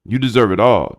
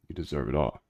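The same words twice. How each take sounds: First: Louder and higher, hyped shout; loud hype. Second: Soft reassurance. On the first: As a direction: cheer a friend on at full voice. Same line belted out. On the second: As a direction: lower and much softer, sincere. Reassuring viewer softly. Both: Real, not acted.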